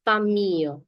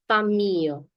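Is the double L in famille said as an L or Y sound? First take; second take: Y; Y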